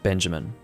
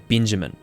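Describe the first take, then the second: First: The first vowel keeps a clear 'e' sound. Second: The first vowel shifts toward an 'i' sound. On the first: "Not Benjamin" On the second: "you have a New Zealander accent, you would say Benjamin"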